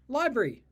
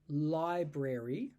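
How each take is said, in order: First: Some sounds are dropped in a quick, relaxed way. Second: Every syllable is pronounced fully and clearly. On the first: "drop out some of that and just say library" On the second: "I would very carefully say library"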